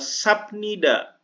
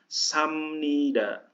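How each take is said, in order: First: A 'p' sound comes before 'nida'. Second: An 'm' sound comes before 'nida'.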